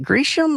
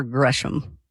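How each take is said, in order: First: "Gresham" said as GREE-shum; first vowel of "Gresham" as in "green"; long-e pronunciation. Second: "Gresham" said as GRESH-um; first vowel of "Gresham" as in "fresh"; short-e pronunciation. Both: Shown as a demonstration. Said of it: "is it Gresham or Gresham".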